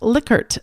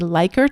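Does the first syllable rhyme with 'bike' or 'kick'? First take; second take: kick; bike. First: The first syllable rhymes with 'kick'. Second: The first syllable rhymes with 'bike'. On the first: This is how the man himself said his name. "the man's last name is actually pronounced Lickert" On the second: This is how most people say the name. "most of us call a Likert scale"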